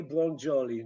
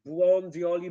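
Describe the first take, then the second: First: "błądioli" said as "błondżoli"; "błądioli" lower, with an English j; wrong assimilation. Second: Said in the usual way. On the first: Shown as a demonstration. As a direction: turn d and i into j in "błądioli". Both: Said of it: "No way".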